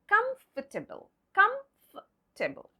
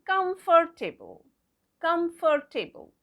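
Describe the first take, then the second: First: COMFORTABLE as KUMF-tuh-bul; silent letters. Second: COMFORTABLE as cum-FOR-TAY-bul, every part sounded; spelling pronunciation. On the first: Teacher modelling the correct word, COMFORTABLE as KUMF-tuh-bul. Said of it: "what will be its pronunciation like?". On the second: Teacher showing the mistaken reading, COMFORTABLE as cum-for-tay-bul. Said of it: "going by the spelling". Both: Shown as a demonstration.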